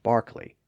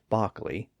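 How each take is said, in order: First: The first vowel sounds like 'ar' with an R. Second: The first vowel sounds like 'ah' without an R. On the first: "Brits call Darby and Barkley" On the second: "Dobby and Bockley without the R sound"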